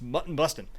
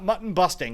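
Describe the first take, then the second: First: The last word ends with a clipped 'in' sound. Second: The last word ends with a full 'ing' sound. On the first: The speaker calls it right. "it's mutton bustin'" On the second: The speaker calls it wrong. "It's not mutton busting"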